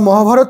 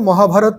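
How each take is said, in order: First: The name ends in a consonant sound. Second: The name ends in an added 'a' vowel. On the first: This is how it is said in Bengali. "আমরা মহাভারত বললেও" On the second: This is how it is said in English. "এখানে মহাভারত এরকম উচ্চারণ হবে"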